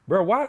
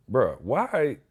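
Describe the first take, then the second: First: High, loud, rising "Bro, why?" in disbelief; exasperated outburst. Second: Said in the usual way. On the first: Real, not acted. Incredulous outburst about trash company.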